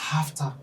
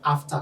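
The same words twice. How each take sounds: First: The word begins with an added H sound. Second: The word begins directly with a vowel. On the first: The speaker calls it wrong. "some people say after, which is very wrong" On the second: The speaker calls it right. "if you want to say after"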